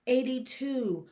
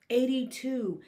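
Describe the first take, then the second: No difference in how they are said.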